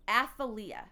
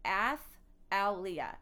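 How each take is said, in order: First: Said in the usual way. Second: "Athaliah" very slowly, split after "Ath", lower; name broken up. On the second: Real, not acted. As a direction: break "Athaliah" into drawn-out pieces, ending near a laugh. Retries the name syllable by syllable.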